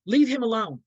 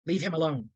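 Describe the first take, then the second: First: Louder, higher, sharp order; angry snap. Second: Said in the usual way. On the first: Retold or imitated. Mother ordering her son away from his father, loud and angry. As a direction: bite the words out at him.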